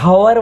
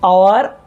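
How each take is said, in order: First: The word begins with an h sound. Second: The word begins directly with a vowel. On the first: The speaker calls it wrong. "ઓવરને હવર વંચાતું નથી" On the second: The speaker calls it right. "એચ આવે તો છે, પરંતુ તેનો ઉચ્ચાર થતો નથી"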